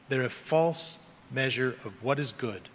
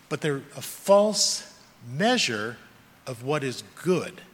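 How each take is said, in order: First: "They're a false measure of what is good" said softer, weight on "false"; quiet echo of the line, leaning on "false"; quieter restatement. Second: "But they're a false measure" drawn out slowly, weight on "measure"; slow down and lean on "measure"; slow, stressed on measure. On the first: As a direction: drop the voice and repeat the point. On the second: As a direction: spell out "a false measure" word by word. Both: Real, not acted.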